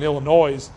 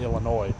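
First: It ends with an audible s sound. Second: It ends without an s sound. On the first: It is a funny, plural-like pronunciation. "I did the Illinois thing accident because I was kind of trying to say it plural" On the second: It is the usual pronunciation. "I would say Illinois"

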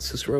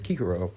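First: The word begins with an S sound. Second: The word begins with a K sound. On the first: This is not the classical pronunciation. The speaker calls it wrong. "It's not Cicero" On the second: This is the classical pronunciation. The speaker calls it right. "it's Kikero. ... It's a hard C"

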